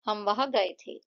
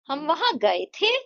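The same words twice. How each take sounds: First: The sentence is said flat, like a statement. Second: The sentence rises like a question, stressing 'गए थे'. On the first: It simply gives information. "यहाँ पे जो है flat sentence बोला है" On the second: It asks whether they went there. "इसे question बनाना है ... गए थे, इस पे जो है मैंने ज्यादा फोकस"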